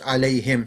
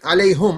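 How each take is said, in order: First: The last syllable is said with an 'i' vowel. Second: The last syllable is said with an 'u' vowel. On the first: The speaker calls it right. "It's alayhim" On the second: The speaker calls it wrong. "you're saying it wrong"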